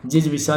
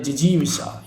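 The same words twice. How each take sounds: First: जिजविषा with short middle, "jij-visha"; mispronounced जिजविषा. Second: Said in the usual way. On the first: Shown as a demonstration. Teacher showing the wrong form, जिजविषा as "jij-visha". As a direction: drop the long ee in the middle. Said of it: "जिजविषा नहीं". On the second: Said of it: "ये शुद्ध है".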